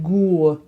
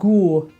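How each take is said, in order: Both takes have the same delivery.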